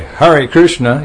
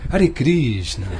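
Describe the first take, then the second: First: It is said in an English accent. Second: It is said in a Russian accent. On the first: The speaker calls it wrong. "You don't say" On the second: The speaker calls it right. "I learned how to speak Russian, because you say"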